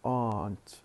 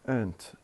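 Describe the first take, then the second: First: The word is said with a strong, full vowel. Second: The word is said with a weak, reduced vowel. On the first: The speaker calls it right. "we say" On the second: The speaker calls it wrong. "We don't say"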